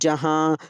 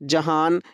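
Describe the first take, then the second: First: The ending is a nasal vowel without n. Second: The ending has a fully pronounced n sound. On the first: The speaker calls it right. "जो नून नाक में पढ़ा जाए उसे नून-गुन्ना कहते हैं" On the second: The speaker calls it wrong. "ऐसा हमने नहीं पढ़ा है"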